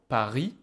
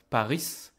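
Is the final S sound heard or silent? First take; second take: silent; heard. First: The final S is silent at the end. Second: The final S is pronounced at the end. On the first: The speaker calls it right. "in French you don't pronounce the S. ... This is Paris" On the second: The speaker calls it wrong. "It's not Paris"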